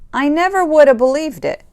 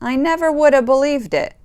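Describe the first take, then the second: Both takes have the same delivery.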